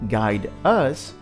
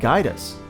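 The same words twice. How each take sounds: First: The two words are said separately. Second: The two words are joined into one. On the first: The speaker calls it wrong. "not guide us" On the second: The speaker calls it right. "but guide us"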